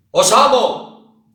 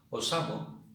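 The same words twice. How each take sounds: First: "Os amo" gritado, agudo y lento. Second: Said in the usual way. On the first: Shown as a demonstration. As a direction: grita "Os amo" a pleno pulmón. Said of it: "os digo". ("Os amo" a gritos, despacio) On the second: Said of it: "yo os digo".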